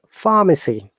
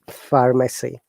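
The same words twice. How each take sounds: First: The R sound after the vowel is dropped. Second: The R sound after the vowel is pronounced. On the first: "This is British English" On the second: "if you want to pronounce these words in American English"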